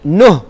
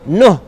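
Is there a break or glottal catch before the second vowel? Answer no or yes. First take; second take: no; no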